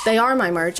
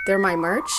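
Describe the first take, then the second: First: Said in the usual way. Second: "they're my merch" rising like a question; question tune. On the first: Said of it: "it's not a question". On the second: Real, not acted. Plugging her merch, rising like a question. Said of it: "why I said that like it was a question".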